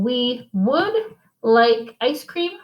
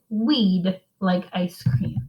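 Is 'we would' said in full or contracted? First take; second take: full; contracted. First: The words 'we would' are said in full. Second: The words are contracted into one syllable, 'we'd'. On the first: "instead of saying" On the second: "we would say we'd like ice cream"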